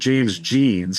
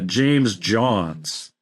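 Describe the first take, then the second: First: The surname is said with an 'ee' vowel. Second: The surname is said with an 'ohn' vowel. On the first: This is how the speaker has always said it. "I've always pronounced it James Jeans because it's spelled like jeans" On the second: This is how the other person said it. "you were you were pronouncing it uh"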